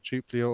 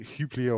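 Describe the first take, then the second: First: The word begins with a J sound. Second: The word begins with an H sound. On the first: "If you're going to put that letter there, I'm going to pronounce it" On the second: "it was like Huplia"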